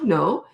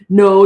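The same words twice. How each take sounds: First: It is said in a calm, neutral way. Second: It is said in a mean, harsh way.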